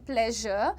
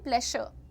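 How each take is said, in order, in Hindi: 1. बीच का व्यंजन नरम 'zh' ध्वनि है। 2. बीच का व्यंजन 'sh' ध्वनि है। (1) "इट इज ... प्लेजर" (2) "श पे रुकती थी मैं"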